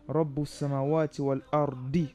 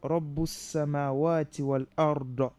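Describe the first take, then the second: First: The last word ends with an 'i' vowel. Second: The last word ends with an 'a' vowel. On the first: The speaker calls it right. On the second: The speaker calls it wrong.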